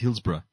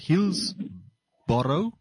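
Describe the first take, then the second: First: The name is said the way locals say it. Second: The name is said as its spelling reads. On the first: "but they pronounce it as" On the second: "It's how you read it is"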